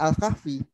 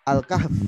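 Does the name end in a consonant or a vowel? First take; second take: vowel; consonant. First: The name ends with an added 'i' vowel. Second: The name ends on the consonant 'f'. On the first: It follows the Indonesian habit of reading the name. "itu bukan Al-Kahfi" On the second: It follows the Arabic reading of the name. "sesuai dengan bacaannya bahasa Arabnya"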